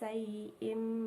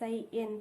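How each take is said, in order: First: The word ends with an m sound. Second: The word ends with an n sound. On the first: The speaker calls it right. "tapi sayyim basir" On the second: The speaker calls it wrong. "bukan sayyin"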